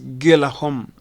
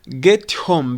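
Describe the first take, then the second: First: The T in get sounds like a soft D. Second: The T in get is a clear T. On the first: "The T in get becomes the soft D, American frap" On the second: "get home becomes"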